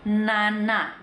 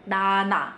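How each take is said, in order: First: The first consonant is a full nasal n. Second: The first consonant is denasalized, sounding like d. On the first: "itu kan ada n-nya dulu tuh" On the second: "n-nya tuh nggak ada, kayak orang bindeng"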